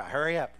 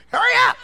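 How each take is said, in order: First: Said in the usual way. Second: Very high, loud yell; urgent shout. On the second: Real, not acted. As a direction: yell it to rush the musician along. Urging musician, escalating to shout.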